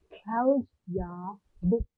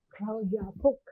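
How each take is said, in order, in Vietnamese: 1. Cụm từ được nói chậm, từng từ một. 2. Cụm từ được nói với tốc độ nhanh hơn. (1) "Cô liền cũng đọc chậm lần lượt từng từ một nhé" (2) "Nhanh hơn một lần nữa nhé"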